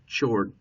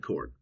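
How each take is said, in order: First: The word begins with a ch sound. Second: The word begins with a k sound. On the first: The speaker calls it wrong. "But it's not chord. Don't say chord" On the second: The speaker calls it right. "it's a chord"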